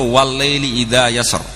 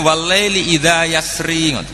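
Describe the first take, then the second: First: The last word ends on a bare r consonant. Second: The last word ends with a short i vowel. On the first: The final vowel is dropped at the stop. "wakof iskan" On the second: The final vowel is kept at the stop. "Harusnya wakofnya walaili idza yasri"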